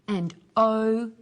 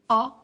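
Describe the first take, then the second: First: It is a long vowel sound. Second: It is a short vowel sound. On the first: "Then the long vowel sounds" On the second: "firstly the short vowel sounds"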